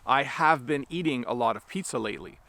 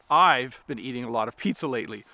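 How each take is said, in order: First: 'I have' is said as two full words. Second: 'I have' is contracted into one syllable. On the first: The speaker calls it wrong. "We don't normally say things like" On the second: The speaker calls it right. "Instead, we say things like this"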